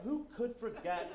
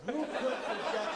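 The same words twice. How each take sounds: First: Said in the usual way. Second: High, loud rhetorical question; hammed-up, projected presenter delivery; emphatic restart. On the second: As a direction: relaunch the line big and showy. Restarts the line with more force.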